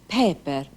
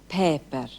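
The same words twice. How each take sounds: The two takes are said the same way.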